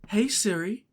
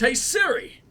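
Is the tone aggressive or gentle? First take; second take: gentle; aggressive. First: It is said in a gentle tone. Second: It is said in an aggressive tone.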